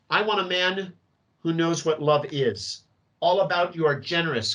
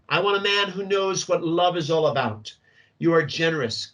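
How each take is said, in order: First: The pause comes after 'what love is'. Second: The pause comes after 'all about'.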